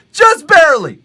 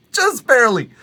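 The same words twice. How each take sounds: First: Higher and louder, emphatic. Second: Said in the usual way. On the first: Real, not acted. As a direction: belt it out for emphasis. Repeats with rising force.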